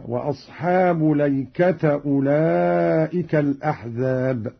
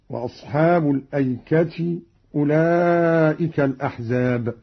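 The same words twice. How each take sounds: First: الأيكة read ليكةَ, no hamza, ending in a; Qalun reading ليكة. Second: Said in the usual way. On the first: Shown as a demonstration. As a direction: open lam and open final ta in الأيكة. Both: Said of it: "قرأ قالون بفتح اللام والتاء".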